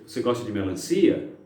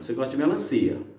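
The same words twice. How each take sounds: First: It is said as a question, ending rising. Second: It is said as a statement, ending flat. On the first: It is a question. "Poderia ser o ponto de interrogação" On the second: It is a statement. "Ponto final"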